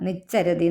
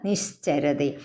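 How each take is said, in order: First: The middle 'sh' sound is weak or missing. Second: The middle 'sh' sound is clearly heard. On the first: The speaker calls it wrong. "നിശ്ചരതി എന്ന് പറയരുത്" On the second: The speaker calls it right. "ആ ശാന്ന് കേൾക്കണം കേട്ടോ"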